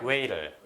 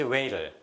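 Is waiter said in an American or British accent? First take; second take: American; American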